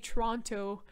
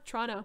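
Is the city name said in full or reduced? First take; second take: full; reduced. First: The name is said in full, every syllable clear. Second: The name is squeezed into two short syllables. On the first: The speaker is not from the city. "you can tell you're not from Toronto if you say Toronto" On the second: The speaker is from the city. "We say Trana"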